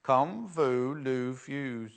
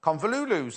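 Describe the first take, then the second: First: Convolvulus, slow and careful with the V sounded; proper pronunciation. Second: Convolulus, with no V sound before the L; Convolulus, the quick home-grown version; her own way of saying it. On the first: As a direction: spell out Convolvulus syllable by syllable, slowly. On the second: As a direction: Convolulus run together as con-vo-lu-lus. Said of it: "that's what I said, isn't it?". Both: Shown as a demonstration.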